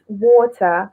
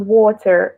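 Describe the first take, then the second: First: It is said with a British accent. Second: It is said with an American accent. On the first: "here it's water" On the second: "I was very used to American way of saying it"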